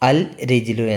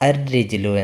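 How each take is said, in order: First: The article's L sound is clearly pronounced. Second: The L merges into a doubled R sound. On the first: The speaker calls it wrong. "അൽ റിജിലു എന്ന് പറഞ്ഞില്ല" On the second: The speaker calls it right. "പകരം അർ റിജിലു എന്നാണ് പറഞ്ഞത്"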